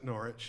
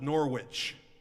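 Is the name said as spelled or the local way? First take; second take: local way; as spelled. First: It is said the way locals say it. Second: It is said the way it is spelled. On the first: "but they pronounce it Norwich" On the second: "It's spelled Norwich"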